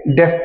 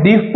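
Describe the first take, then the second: First: डेफ with a short "e", like deff; correct pronunciation. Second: डीफ with a long "ee", like deef; wrong pronunciation. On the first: Teacher giving students the correct डेफ, short e. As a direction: say डेफ the right way. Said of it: "आप इसे क्या पढ़ेंगे?". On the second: Teacher showing students the wrong reading, डीफ as deef. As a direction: say डीफ the mistaken way. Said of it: "आप इसे डीफ नहीं पढ़ेंगे". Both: Shown as a demonstration.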